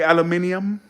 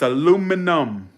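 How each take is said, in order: First: It is said the British way, five syllables. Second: It is said the American way, four syllables. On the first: The speaker calls it wrong. "Why are y'all saying aluminium?" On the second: The speaker calls it right. "It's aluminum"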